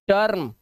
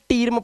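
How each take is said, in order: First: The vowel sounds like 'er'. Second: The vowel sounds like 'ee'. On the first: The speaker calls it right. "अब ये आ हो गया है" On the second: The speaker calls it wrong. "अब ऐसा मत करना"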